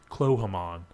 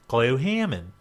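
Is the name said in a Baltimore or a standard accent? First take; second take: standard; Baltimore. First: The name is said in a standard accent. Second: The name is said in a Baltimore accent. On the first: "spelled like it should be pronounced Clohamon" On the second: "or for you Balmaries"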